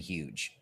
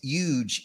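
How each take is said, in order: First: The word starts with an H sound. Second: The word starts without an H sound. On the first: It means ordinary huge. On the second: It is even bigger than ordinary huge.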